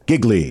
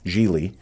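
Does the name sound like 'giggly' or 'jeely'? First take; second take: giggly; jeely. First: The name is said like 'giggly'. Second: The name is said like 'jee-lee'. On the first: The speaker calls it wrong. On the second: The speaker calls it right.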